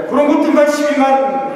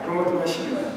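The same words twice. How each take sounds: First: Emphatic. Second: Quiet echo. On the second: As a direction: murmur the phrase back to yourself. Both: Shown as a demonstration. Preacher repeats the verse phrase.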